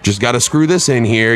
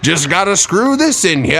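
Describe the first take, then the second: First: It is said in the speaker's ordinary accent. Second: It is said in a put-on British accent.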